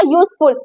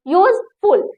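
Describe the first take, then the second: First: Said in the usual way. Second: "यूजफुल" broken into use, then ful; syllable by syllable. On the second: Shown as a demonstration. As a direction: say "यूजफुल" as two separate beats. ("यूजफुल" दो हिस्सों में तोड़कर) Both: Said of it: "बोलने में थोड़ा सा time लगे".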